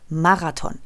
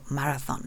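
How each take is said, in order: First: The word is pronounced the German way. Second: The word is pronounced the English way.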